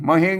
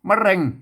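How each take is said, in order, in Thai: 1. พยางค์ที่สองขึ้นต้นด้วยเสียง h 2. พยางค์ที่สองขึ้นต้นด้วยเสียง r (1) "ของเฮามันออกมะเฮง" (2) "ภาษาไทยเป็นออกรอ"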